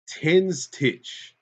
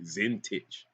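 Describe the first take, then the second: First: The name begins with a T sound. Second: The name begins with a Z sound.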